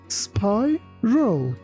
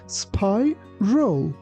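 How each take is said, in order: Both takes have the same delivery.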